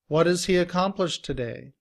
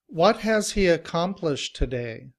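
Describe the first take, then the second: First: What has blends together with a d-like sound. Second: What and has are said as separate full words.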